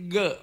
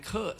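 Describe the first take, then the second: First: "เกอะ" with a voiced hard g; voiced G sound. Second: "เคอะ" with a puff of air; aspirated K sound. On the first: Lecturer showing the original sound, "เกอะ" with voiced g. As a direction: demonstrate "เกอะ" as Indic ga, voiced. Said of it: "เราเอาเสียงเกอะมาออกเป็นเคอะ". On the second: Lecturer showing the Thai substitute, breath-released kh in "เคอะ". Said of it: "มาออกเป็นเคอะซะ". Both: Shown as a demonstration.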